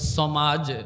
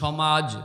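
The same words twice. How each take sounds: First: The word begins with an 's' sound. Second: The word begins with a 'sh' sound. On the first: This is how a man with an injured tongue said it. "বেলালের মুখ থেকে আসতো ... শিন বলতে পারতেন না" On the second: This is how people usually say it. "আমরা যেমন বলি"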